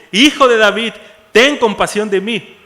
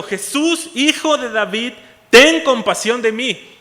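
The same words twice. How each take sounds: First: Full-voiced desperate shout; shouting even louder. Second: Loud pleading cry; a blind man calling out to Jesus over the crowd. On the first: Bartimaeus defying the crowd to reach Jesus, very loud shout. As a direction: throw it over the crowd that tries to hush him. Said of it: "se puso a gritar aún más fuerte". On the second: Retold or imitated. Bartimaeus begging Jesus for mercy, loud pleading shout. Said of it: "Bartimeo está gritando".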